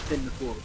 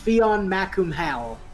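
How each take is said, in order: First: It is said short, ending 'cool'. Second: It is read letter by letter, ending 'hal'. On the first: The speaker calls it right. "it's actually pronounced" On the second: The speaker calls it wrong. "if you read it as it's spelled"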